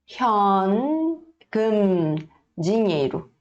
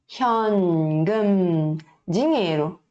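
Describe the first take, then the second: No difference in how they are said.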